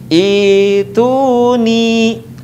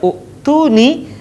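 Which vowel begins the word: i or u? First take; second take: i; u. First: The word begins with an i vowel. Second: The word begins with an u vowel. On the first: The speaker calls it right. "tetapi dibaca ituni" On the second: The speaker calls it wrong. "tidak dibaca u'tuni"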